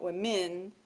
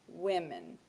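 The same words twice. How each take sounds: First: The stress is on the second syllable. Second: The stress is on the first syllable. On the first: The speaker calls it wrong. "not women, no" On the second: The speaker calls it right. "the stress is on the first syllable"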